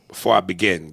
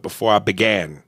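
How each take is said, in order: First: "begin" ending in GIN, short I; corrected begin. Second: "began" ending in GAN, open A; mistaken began. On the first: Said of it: "It's begin". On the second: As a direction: quote the error "began", with an A. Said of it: "You put before I began". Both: Shown as a demonstration.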